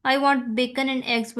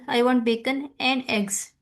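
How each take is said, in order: First: Said in the usual way. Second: "and" said as a full, separate word; stress on "and". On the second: Shown as a demonstration. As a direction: give "and" its full strong form. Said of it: "अब and पे क्या हो रहा है, stress हो रहा है".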